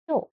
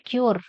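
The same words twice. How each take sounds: First: "Cure" as kyo, silent r; correct pronunciation. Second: "cure" as kyoor, r sounded; mistaken pronunciation. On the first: Teacher corrects the word for students, "Cure" without r. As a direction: end "Cure" on the vowel, no r. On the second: Teacher shows students what to avoid, "cure" with clear r. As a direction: pronounce the final r in "cure". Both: Shown as a demonstration. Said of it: "It is not cure".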